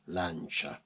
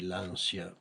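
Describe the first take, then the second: First: The word is pronounced the Italian way. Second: The word is pronounced the English way. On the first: The speaker calls it right. "the right pronunciation is Lancia. In Italian is Lancia" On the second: The speaker calls it wrong. "in English they say Lancia"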